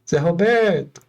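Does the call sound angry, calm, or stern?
calm. The name is called out in a mild tone. It is only a first call. "é uma intenção"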